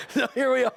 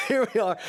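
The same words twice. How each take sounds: First: A hint of excited announcing; high lively restart. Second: Laughing as you repeat it; amused half laugh. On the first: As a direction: pitch it up brightly, a touch louder. Opening the story again. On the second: Real, not acted. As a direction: say it through a chuckle.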